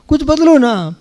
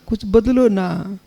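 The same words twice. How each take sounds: First: It is said louder, with a raised voice. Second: It is said softly and affectionately.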